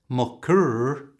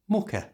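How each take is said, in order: First: The ending is said with a strong R sound. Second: The ending is a short, weak schwa sound. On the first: The speaker calls it wrong. "it's not mucker" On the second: The speaker calls it right. "pronounced with a schwa sound"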